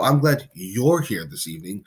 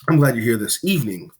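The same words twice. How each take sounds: First: The word you're carries the main stress. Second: The word evening carries the main stress. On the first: This particular person is welcome, unlike others. "means that you are glad that the person specifically is there" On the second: This time of day is the best one. "This is the superior time of day for this"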